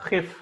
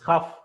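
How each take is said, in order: First: The vowel after kh is a short i. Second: The vowel after kh is a short a. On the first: The speaker calls it wrong. "It's not khif" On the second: The speaker calls it right. "it's khaf"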